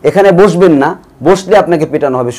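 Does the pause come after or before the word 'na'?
after. The pause falls just after the word 'na'. You must not sit here or you will be beaten. "শুধু না, এটা আগের sentence পরের সেন্টেন্সে নিয়ে গেলে দুই ধরনের অর্থ হয়"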